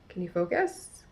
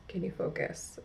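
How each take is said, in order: First: Said in the usual way. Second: Breathy whisper, much softer; hushed aside to the camera. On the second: Real, not acted. Coaxing camera to focus again.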